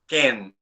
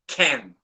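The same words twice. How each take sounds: First: The k is said without a puff of air. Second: The k is said with a puff of air. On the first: "if I do not pronounce aspiration" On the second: "Now in English, ... Extra air"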